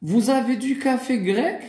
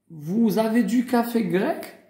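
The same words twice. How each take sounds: The two takes are said the same way.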